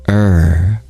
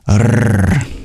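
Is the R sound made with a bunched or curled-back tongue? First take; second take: bunched; curled back. First: A bunched English-style R with no breathiness. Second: A curled-back R with strong breathy airflow. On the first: The speaker calls it wrong. "they actually just bridge their tongue up to kind of the same spot" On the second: The speaker calls it right. "your tongue is curled back. That's called retroflex. And you want to aspirate"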